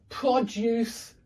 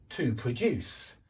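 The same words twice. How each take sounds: First: Produce stressed on the first syllable, high; noun stress. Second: Produce stressed on the second syllable, low, slow; verb stress. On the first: Teacher drilling the pattern, first-syllable stress on produce. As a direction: hit PRO in produce. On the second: Teacher drilling the pattern, second-syllable stress on produce. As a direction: land on DUCE in produce. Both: Shown as a demonstration. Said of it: "because there is a pattern".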